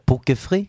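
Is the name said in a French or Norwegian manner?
French. The name is said French-style, without the k.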